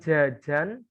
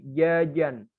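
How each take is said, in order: First: The j comes with a strong burst of air. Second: The j is touched lightly, leaning toward y. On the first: The speaker calls it wrong. "Bukan jajan" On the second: The speaker calls it right. "tapi jajan ... condong ke huruf ya gitu"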